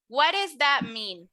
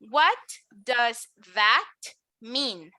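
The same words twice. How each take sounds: First: It is said very fast, the d almost an r. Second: It is said at a careful, even pace. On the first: "listen to when I say it very fast" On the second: "Repeat after me"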